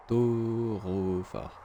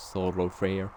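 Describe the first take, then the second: First: Thoroughfare stretched out very slowly, syllable by syllable; English pronunciation attempt. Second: Thoroughfare said quickly in a hammed-up English accent; a jokey English accent on Thoroughfare; mock English accent. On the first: A French gamer sounding out an English place name, drawn-out English pronunciation. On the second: A French gamer mocking his own English accent, hammed-up English accent. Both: Shown as a demonstration. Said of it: "Magnifique accent anglais".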